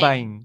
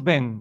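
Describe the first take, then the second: First: The vowel glides as a nasal diphthong. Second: The vowel is a single plain e sound. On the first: This is the Portuguese way of saying it. "non bain; vós quando pronunciáis faceis un ditongo" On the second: This is the Galician way of saying it. "nós dicemos ben"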